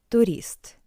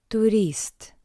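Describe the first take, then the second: No difference in how they are said.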